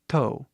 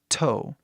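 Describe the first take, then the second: First: The T sound is light and soft. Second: The T sound is strong and forceful. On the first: The speaker calls it wrong. "Mais leve, mais suave até" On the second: The speaker calls it right. "Bem forte assim"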